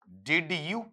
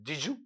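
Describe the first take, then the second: First: The d and y sounds stay separate. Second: The d and y merge into a j sound. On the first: "अलग जब आप लेते हैं तो अलग इसका उच्चारण क्या होता है" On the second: "जब इसे आप कनेक्टेड लेंगे ना"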